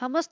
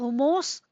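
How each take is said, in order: First: It is said with a short plain 'mus' ending. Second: It is said with an odd long 'mos' ending. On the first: It is the common way to say it. The speaker calls it right. "हमस तो सभी बोलते हैं" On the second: It imitates someone's mispronunciation. The speaker calls it wrong. "अरे कैसे बोल रही थी"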